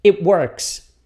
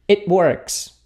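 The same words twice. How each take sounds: First: It works with a clipped short E in it; model pronunciation. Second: It works again, it as a short "et"; repeated model. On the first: (pronúncia modelo de "it works" com som de E) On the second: (repetição de "It works" com som de E) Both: Shown as a demonstration. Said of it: "o T já tranca na língua".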